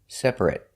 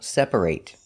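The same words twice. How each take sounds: First: The last syllable is a short 'it' sound. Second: The last syllable is a full 'ate' sound. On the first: It is used as an adjective. "If it's not a verb, an adjective, it's pronounced it" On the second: It is used as a verb. "If it's a verb, it's pronounced ate"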